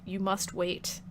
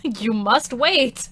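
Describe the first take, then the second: First: Much softer, low and halting; soft reminder. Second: Slow, deliberate "You must wait" with weight on each word; mock-solemn command. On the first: Real, not acted. Streamer telling chat to wait for streams, soft reminder. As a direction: say it quietly, almost under the breath. First take, before emphatic repeat. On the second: Streamer decreeing to impatient chat, mock-solemn slow "You must wait". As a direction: stretch out "You must wait" in playful decree, far louder than a murmur.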